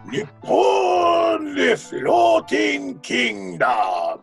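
It is said in a grand, presentational manner. "very presentational"

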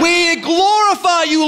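It is said in a joyful, celebrating way.

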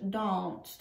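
The word is said with a British vowel. "a nice British danced"

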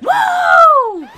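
It is said with a gruff voice.

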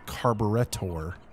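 It is said with a British accent. The speaker calls it right. "if you're British, you pronounce it completely different"

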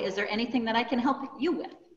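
The word "you" is given strong stress. "by enunciating that you, it comes over tenfold"

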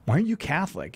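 It is said in an annoyed tone.

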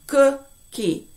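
The syllables are said separately with a break. "Take them apart bit by bit"

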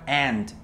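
It is said with an American accent. "y en americano aunt"

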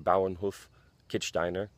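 The name is pronounced with German sounds. "the correct or more correct German pronunciation"

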